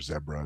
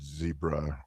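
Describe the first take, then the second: First: It is said with a British accent. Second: It is said with an American accent.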